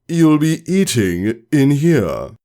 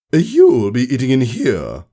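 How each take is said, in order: First: Slow, firm command; slow firm teacher order; authoritative repeat. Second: Stern order. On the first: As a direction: leave no room to argue. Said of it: "Her voice was loud and authoritative". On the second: Teacher gives an order. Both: Acted.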